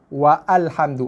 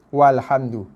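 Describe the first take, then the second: First: A separate 'a' vowel is sounded after 'wa'. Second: 'Wa' runs straight into 'lhamdu' without an extra vowel. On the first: The speaker calls it wrong. "kesalahan bacaan" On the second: The speaker calls it right. "Bila dibaca, abaikan saja"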